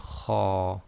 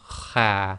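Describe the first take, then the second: First: The vowel is heavy, like ar in art. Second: The vowel is light, like a in apple. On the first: The speaker calls it right. "it must be kha" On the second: The speaker calls it wrong. "with kha you cannot say kha"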